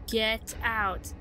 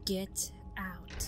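First: Loud command, stress on get; firm commanding get out. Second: Menacing whisper. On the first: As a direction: bark it at an intruder. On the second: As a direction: breathe the words like a ghost. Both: Acted. Reads threatening wall text.

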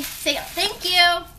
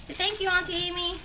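First: Put-on slow, drawn-out prompt to a toddler; coaxing prompt. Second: Put-on fast, brisk prompt to a toddler; quick prompt. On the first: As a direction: stretch it out for the little one. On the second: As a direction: rattle it off to the child. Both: Shown as a demonstration.

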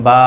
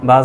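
First: বা with a long, held vowel; stretched vowel. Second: বা said short, without stretching; quick short vowel. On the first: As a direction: draw বা out for one alif. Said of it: "টেনে উচ্চারণ করতে হবে". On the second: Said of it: "হরকতের উচ্চারণ তাড়াতাড়ি করতে হয়". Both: Shown as a demonstration.

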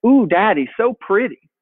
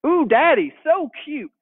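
First: Lightly voiced little girl cooing; a hint of an admiring toddler. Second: Put-on much higher cooing little girl; toddler voice. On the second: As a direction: coo like a delighted two-year-old. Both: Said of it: "she started saying".

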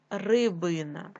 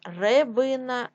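First: Said in the usual way. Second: Рибина said as Ребина; е in first syllable. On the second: Shown as a demonstration. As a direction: open e after Р in Рибина. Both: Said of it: "Від слова риба".

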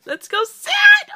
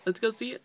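First: Very high, loud shrieked excitement; loud ecstatic squeal; excited squeal. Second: Said in the usual way. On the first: Real, not acted. Excitement boils over into squeal.

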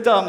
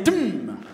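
First: Said in the usual way. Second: "dum" as a long falling hummed drum hit; drum sound. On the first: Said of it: "instead of dumb, say dum". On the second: Shown as a demonstration. Leader swaps word for beatbox sound, drum-like "dum". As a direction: turn "dum" into a drum boom, holding the m. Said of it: "say dum".

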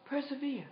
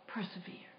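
First: Said in the usual way. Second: Breathy whispered persevere, barely voiced. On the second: Shown as a demonstration. Preacher whispers "Persevere." to a struggling congregation, hushed. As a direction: whisper "Persevere." like a secret urged on the listener.

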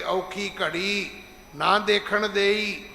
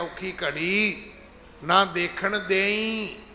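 First: Slow, confident recitation, ਦੇਈ as a sure statement; ਭਰੋਸੇ ਨਾਲ, ਹੌਲੀ ਪਾਠ; read with trust. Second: Very slow, begging recitation, ਦੇਈ drawn out as a request; ਤਰਲੇ ਨਾਲ ਅਰਦਾਸ ਵਾਂਗ, ਬਹੁਤ ਹੌਲੀ; mock pleading prayer. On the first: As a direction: recite it slowly as calm faith, not a plea. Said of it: "ਭਰੋਸੇ ਦੇ ਤੌਰ ਤੇ ਪੜਨਾ ਹੈ". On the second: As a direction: plead with God, mockingly slow. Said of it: "ਇਹਨੂੰ ਦੇਈ ਨਹੀਂ ਕਹਿਣਾ". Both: Shown as a demonstration.

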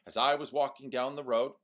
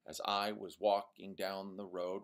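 First: Louder, higher reading with every second beat punched; sing-song iambic de-dum; iambic beat stressed. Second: Said in the usual way. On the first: Shown as a demonstration. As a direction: tap out the de-dum heartbeat on "walking" and "road". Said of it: "Eight beats". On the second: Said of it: "iambic is that de-dum".

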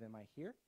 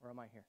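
First: Here said with a rising tune; rising question. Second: "here" said with a falling tune; falling question. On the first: Preacher posing the first option to the congregation, rising on "here". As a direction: ask "Am I here" lifting up on "here". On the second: Preacher contrasting the second option, falling on "here". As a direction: close "or am I here?" by dropping down on "here". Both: Shown as a demonstration. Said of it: "it's really this question of".

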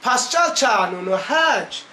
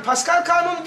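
First: Put-on slow Erzurum accent, "Pascal" as "Paçal" and "kanunu" as "çanunu"; drawn-out Erzurum accent on "Pascal kanunu hiç", "hiç" like "haç". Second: Said in the usual way. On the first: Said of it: "Erzurum şivesiyle". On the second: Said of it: "Yani Pascal kanunu diyoruz".

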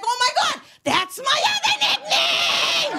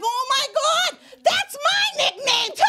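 First: High, loud, drawn-out delight; delighted squeal. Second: Delighted squeal. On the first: Hearing New Orleans' nickname, high loud delighted squeal. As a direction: squeal it, much higher and louder. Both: Retold or imitated. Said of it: "I was like".

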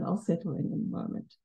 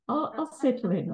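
First: Breathy whisper to herself, much softer; a nervous speaker whispers an aside while settling in. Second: Said in the usual way. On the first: Real, not acted. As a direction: drop to a private whisper, nearly unvoiced.

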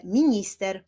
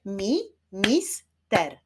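First: Said in the usual way. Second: "Mi-, mis-ter" slow, in three beats; syllable by syllable. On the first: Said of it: "Wyklaszczmy sylaby w wyrazie". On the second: Shown as a demonstration. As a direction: clap out "Mi-, mis-ter" with gaps. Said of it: "Wyklaszczmy sylaby". („Mi-, mis-ter” powoli, sylabami)

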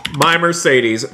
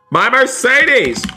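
First: Said in the usual way. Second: High, drawn-out wail of dismay; dismayed outcry. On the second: Pretend. Gamer seeing the Mercedes crashed, dismayed outcry. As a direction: cry out slowly, pitch soaring then falling.

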